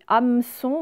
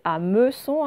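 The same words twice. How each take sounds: First: The middle vowel is dropped in quick speech. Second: The middle vowel is clearly sounded. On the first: This is how people say it in everyday talk. "quand on parle, on dit hameçon" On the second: This shows every letter that is written. "mais en fait, c'est hameçon"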